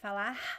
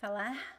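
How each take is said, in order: First: The final R is the Rio and northeastern kind. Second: The same.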